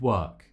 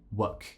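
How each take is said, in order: First: The vowel is said long. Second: The vowel is said short. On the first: The speaker calls it right. "instead of work" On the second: The speaker calls it wrong. "they just produce it as a short vowel"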